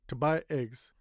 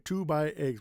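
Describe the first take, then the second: First: The word 'to' is cut short and reduced. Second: The word 'to' is pronounced fully and clearly. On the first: The speaker calls it right. "We say to buy eggs" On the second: The speaker calls it wrong. "we don't say to buy eggs"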